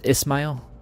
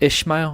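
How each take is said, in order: First: The name has an 's' sound after the first vowel. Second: The name has an 'sh' sound after the first vowel. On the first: The speaker calls it right. "that's how you pronounce it" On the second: The speaker calls it wrong. "It's not Ishmael"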